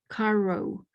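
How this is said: It is said with an English accent. The speaker calls it wrong.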